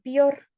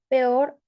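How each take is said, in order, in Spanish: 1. La primera vocal suena como i. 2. La primera vocal suena como e.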